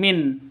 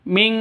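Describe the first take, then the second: First: The word ends in a plain n sound. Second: The word ends in a nasal ng sound. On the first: The speaker calls it wrong. "bukan Min" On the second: The speaker calls it right. "tapi Ming"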